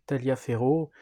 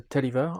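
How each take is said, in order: First: Taliaferro read as written, "ta-lia-fé-ro"; French spelling pronunciation. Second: Taliaferro said as "Tolliver"; English pronunciation. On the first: Game presenter reading out a general's written name, Taliaferro pronounced as spelt in French. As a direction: sound out every syllable of Taliaferro the French way. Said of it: "celui qu'on voit écrit".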